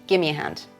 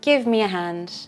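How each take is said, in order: First: Sounds are dropped and squeezed into a casual blur. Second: All words are kept but run smoothly together. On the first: "Very informal"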